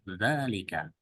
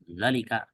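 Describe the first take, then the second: First: The first vowel is held long. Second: The first vowel is held short. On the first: The speaker calls it right. "tapi zalika, dua harokat" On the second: The speaker calls it wrong. "bukan zalika"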